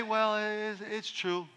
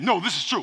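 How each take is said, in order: First: Soft, unsure half-statement; a limp, doubtful "true"; hesitant. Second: Certain, definite statement; firm. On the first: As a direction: say it without conviction. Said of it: "And if you say". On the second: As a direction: plant it as fact. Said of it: "that's different than". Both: Shown as a demonstration.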